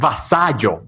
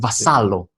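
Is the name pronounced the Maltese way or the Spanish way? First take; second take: Spanish; Maltese. First: The name is pronounced the Spanish way. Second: The name is pronounced the Maltese way. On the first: "in Spanish it's" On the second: "In your country, Malta, it's"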